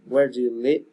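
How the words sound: The voice rises at the end.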